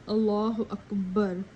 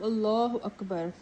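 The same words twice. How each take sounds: First: The second vowel of Akbar is drawn out long. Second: The second vowel of Akbar is kept short. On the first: The speaker calls it wrong. "pull the second alif of the word Akbar by saying" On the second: The speaker calls it right. "instead of"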